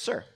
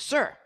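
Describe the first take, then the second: First: It is said at a quiet, normal volume. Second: It is said somewhat louder.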